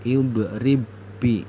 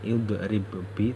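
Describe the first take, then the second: First: The b is merged into one doubled b. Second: The first b has an echoing bounce. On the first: The speaker calls it right. "kita bacanya harus idrib bi" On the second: The speaker calls it wrong. "Ini tulisannya idrib bi tapi tidak boleh dibaca begitu"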